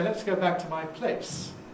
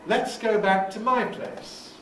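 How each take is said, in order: First: The main stress falls on "place". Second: The main stress falls on "my". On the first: The speaker calls it wrong. "You wouldn't say" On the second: The speaker calls it right. "you might say"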